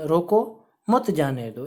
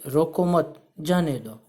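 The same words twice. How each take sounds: First: "रोको" raised, pause, then "मत जाने दो"; pause after रोको. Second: "रोको मत" as one phrase, pause, then "जाने दो"; pause after मत. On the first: Teacher showing the comma changes the meaning, pause after रोको. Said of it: "और यहाँ अल्प विराम". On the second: Teacher reading out a comma example, pause after मत. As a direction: keep मत joined to रोको, break before जाने. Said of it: "गलत भी हो सकता है". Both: Shown as a demonstration.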